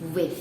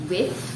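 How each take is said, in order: First: The word ends with a soft th sound. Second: The word ends with an f sound. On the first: The speaker calls it right. "the correct pronunciation for the word W I T H" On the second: The speaker calls it wrong. "not with"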